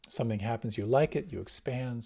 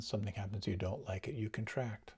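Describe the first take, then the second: First: Said in the usual way. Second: Quiet. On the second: Shown as a demonstration. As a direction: drop to a soft, withdrawn voice. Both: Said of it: "contrasting liking with disliking".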